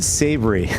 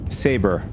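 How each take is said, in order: First: The word is said as savory. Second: The word is said as saber. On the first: The speaker calls it wrong. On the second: The speaker calls it right.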